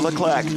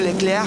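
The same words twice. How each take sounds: First: The name is said with an English accent. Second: The name is said with a French accent. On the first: "we'll pronounce it with the English accent" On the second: "en français"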